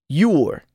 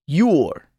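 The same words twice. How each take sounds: The two takes are said the same way.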